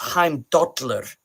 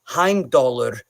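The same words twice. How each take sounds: First: The double L is a hissing sideways lisp. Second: The double L is a plain L sound. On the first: This is the modern Icelandic pronunciation. "now in modern Icelandic, it's Heimdallr. It's a like a a tick on the side of the the teeth" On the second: This is the older Old Norse pronunciation. "wasn't really present in Old Norse"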